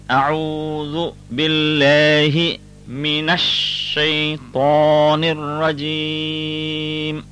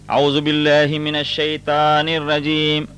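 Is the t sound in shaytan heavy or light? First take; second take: heavy; light. First: The t in shaytan is heavy and emphatic. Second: The t in shaytan is light and thin. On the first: The speaker calls it right. "So we say" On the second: The speaker calls it wrong. "We do not say"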